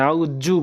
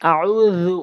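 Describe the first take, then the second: First: The middle consonant is a long doubled 'j'. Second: The middle consonant is a soft 'dh' sound. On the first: The speaker calls it wrong. "অনেকেই ভুল উচ্চারণ করে আউজ্জু বলে" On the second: The speaker calls it right. "জালের উচ্চারণ জিহ্বার আগা দাঁতের আগা"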